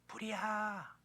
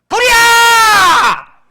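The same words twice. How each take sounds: First: It is said calmly and quietly. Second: It is shouted loudly with full force.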